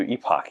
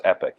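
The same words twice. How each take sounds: First: Epoch said EE-pock, long E; EE-pock, not EP-ik; local EPOCH pronunciation. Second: Epic said EP-ik, short E; EP-ik, not EE-pock; usual EPIC pronunciation. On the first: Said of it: "they do epoch here". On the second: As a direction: say epic with a short first vowel. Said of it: "it's usually pronounced epic". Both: Shown as a demonstration.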